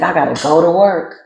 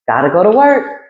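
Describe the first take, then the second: First: The voice sounds reluctant and weary. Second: The voice sounds eager and upbeat. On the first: Going to work is a burden. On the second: Going to work is welcome. "the same thing with an alternate perception"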